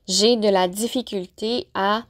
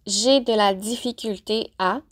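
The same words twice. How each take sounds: The two takes are said the same way.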